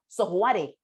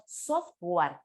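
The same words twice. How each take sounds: First: Software con la e final pronunciada, como en español; software leído letra por letra. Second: Software sin la e final, como en inglés; software a la inglesa. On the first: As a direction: lee software tal como se escribe. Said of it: "Nadie pronuncia software". (software deletreado al modo español) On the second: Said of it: "Todos pronunciamos software". (software con pronunciación inglesa) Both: Shown as a demonstration.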